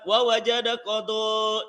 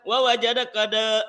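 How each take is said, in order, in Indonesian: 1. Suku kata terakhir berakhir dengan o berat. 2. Suku kata terakhir berakhir dengan a ringan.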